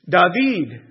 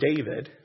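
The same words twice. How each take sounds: First: The name is said the Hebrew way. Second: The name is said the English way. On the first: "That is the Hebrew way of saying it" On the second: "my name is David"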